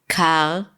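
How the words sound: It ends with slight friction in the throat. "just like this slight friction in the back of the throat"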